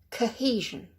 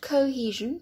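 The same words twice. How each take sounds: First: The first syllable is reduced to a quick k. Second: The first syllable has a full vowel. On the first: The speaker calls it right. "just go k" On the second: The speaker calls it wrong. "Not cohesion"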